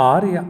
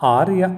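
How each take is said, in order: Both takes have the same delivery.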